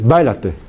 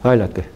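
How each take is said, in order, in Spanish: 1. La b inicial tiene un cierre fuerte y duro. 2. La b inicial tiene un cierre suave y débil. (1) "en vez de decir bailate. Boom" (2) "sino semi-oclusiva"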